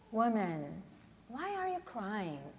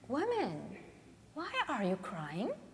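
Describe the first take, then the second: First: The question sounds let down and disappointed. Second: The question sounds puzzled and confused. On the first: The speaker expected the listener to know better. "or disappointed" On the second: The speaker does not understand the reason for the crying. "Perhaps Jesus sounded perplexed"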